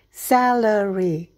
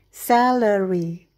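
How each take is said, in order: No difference in how they are said.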